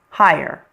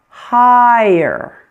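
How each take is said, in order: First: The word is said quickly, nearly one syllable. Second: The word is said slowly, almost two syllables. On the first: "When you say it a little bit faster" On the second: "when we slow it down a little bit, it sounds like this"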